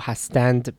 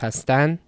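First: The word ends with a d sound. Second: The word ends with an n sound. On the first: "goes from and to an" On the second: "hastand becomes hastan"

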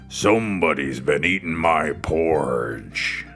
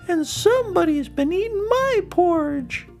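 First: It is growled in a big, deep voice. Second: It is said in a medium-pitched voice.

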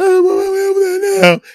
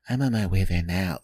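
First: She sounds upset and angry. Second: She sounds calm and relaxed.

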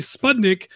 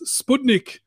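First: It is said the way Australians say it. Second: It is said the way it supposedly should be. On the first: "people pronounce it differently in Australia. They say Sputnik" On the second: "apparently it's supposed to be pronounced Sputnik"

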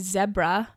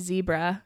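First: It is said the British, South African way. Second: It is said the North American way.

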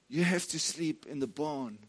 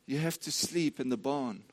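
The two takes are said the same way.

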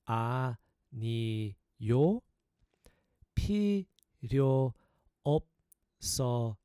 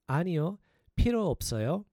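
First: It is said slowly and deliberately. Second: It is said at normal, quicker speed.

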